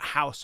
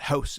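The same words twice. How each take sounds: First: The vowel has a broader American-style sound. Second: The vowel has a raised Canadian-style sound. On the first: The speaker calls it wrong. "It's not house, Americans" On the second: The speaker calls it right. "that's how we say in Canada"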